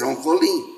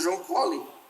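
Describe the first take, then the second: First: The stress falls on the last syllable of Colin. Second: The stress falls on the first syllable of Colin. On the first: This is how local people say it. The speaker calls it right. "Vocês dizem que é João Colim. Por quê? Porque não tem acento" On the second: This is how people from elsewhere say it. The speaker calls it wrong. "as pessoas que vêm de fora dizem João Collin, porque eles não sabem"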